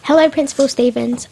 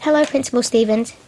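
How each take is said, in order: First: Mild call across to someone. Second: Mildly polite greeting. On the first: Student spotting the principal outside school, mildly calling out. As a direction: call out a greeting, lightly raised. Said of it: "I called out to him". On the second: Student greeting her school principal, mildly polite. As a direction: greet the principal with understated courtesy. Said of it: "she said politely". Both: A narrator's reading.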